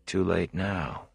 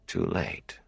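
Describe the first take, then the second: First: Soft, slow, inward thought with TOO leaned on; inner thought. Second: Much softer, distant echo of "Too late." with TOO falling; echoing thought. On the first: Rand thinking to himself, a soft slow inner thought. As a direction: murmur "Too late now" slowly, much softer, falling on too. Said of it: "he thought". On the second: Rand's thought echoing back to him, a faint distant murmur. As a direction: let "Too late." drift off like a faraway echo in his head. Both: A narrator's reading.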